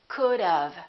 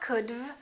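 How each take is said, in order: First: A short uh vowel comes before the v. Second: The v follows the d with no vowel. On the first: The speaker calls it right. "We put a little uh sound in there and it sounds like this" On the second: The speaker calls it wrong. "they just add the V and they say could've. It's not could've"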